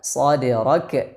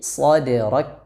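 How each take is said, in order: First: The final k ends with an echoing bounce. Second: The final k ends without any bounce. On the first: The speaker calls it wrong. "Jangan dibaca" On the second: The speaker calls it right.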